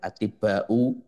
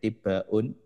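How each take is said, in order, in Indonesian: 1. Kata ini berakhir pada bunyi u biasa. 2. Kata ini berakhir dengan bunyi n yang ditambahkan. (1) "namun yang benar adalah atibba'u" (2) "mungkin kemarin terbaca atibbaun"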